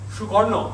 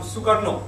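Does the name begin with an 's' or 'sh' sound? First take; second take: sh; s. First: The name begins with a 'sh' sound. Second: The name begins with an 's' sound. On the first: This is the Bengali way of saying it. "Karno is the way we say it in Bengali. Shukarno, I would have said" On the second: This is the Indonesian way of saying it. "Shukarno has become Sukarno uh, in uh, in Indonesia"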